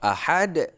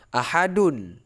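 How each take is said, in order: First: The word ends on a plain 'd' sound. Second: The word ends with an added 'un' sound. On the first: The reading stops at this word. "kalau kita wakaf" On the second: The reading continues into the next word. "Kalau kita sambung"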